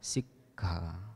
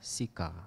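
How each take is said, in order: First: There is a brief hold at the k. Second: The k is short with no hold. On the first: It means training. The speaker calls it right. "berhenti sejenak di antara double k. Jadi diucapkan sikha" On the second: It means tongue of fire. The speaker calls it wrong. "umumnya umat Buddha mengucapkan sika begitu"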